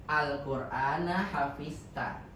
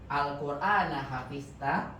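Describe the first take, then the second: Both takes have the same delivery.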